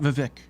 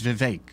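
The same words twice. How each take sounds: First: The last syllable does not rhyme with cake. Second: The last syllable rhymes with cake. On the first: The speaker calls it wrong. "It's not Vivek" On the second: The speaker calls it right. "Rhymes with cake"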